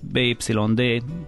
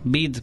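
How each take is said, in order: First: The name is spelled out letter by letter. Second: The name is said as one short word. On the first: The speaker calls it right. "ezt így kéne mondani" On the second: The speaker calls it wrong. "jellemzően bid"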